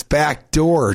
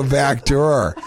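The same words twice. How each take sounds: First: "back door" said slowly, door clearly not drawer; saying door. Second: "back drawer" with drawer said like the furniture; mixing up "back drawer" for back door; saying drawer. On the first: Girlfriend correcting him, "back door" said slowly. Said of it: "not back drawer". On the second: To girlfriend, says "back drawer" like the dresser drawer. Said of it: "It's back door, T J, not back drawer". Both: Retold or imitated.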